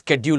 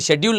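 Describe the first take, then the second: First: The word begins with an sk sound. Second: The word begins with an sh sound. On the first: The speaker calls it right. "स्केड्यूल होता है" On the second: The speaker calls it wrong. "शेड्यूल नहीं होता"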